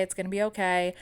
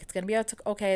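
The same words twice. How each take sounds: First: Said in the usual way. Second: Holding back tears. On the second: Retold or imitated. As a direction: voice catching on okay. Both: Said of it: "trying not to cry".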